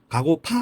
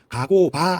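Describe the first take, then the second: First: The last syllable starts with an aspirated p. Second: The last syllable starts with a plain b. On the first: This is how people actually say it. "가고파 합니다" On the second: This follows the literal form of the words. "글자 그대로 하면 가고바 해야 돼요"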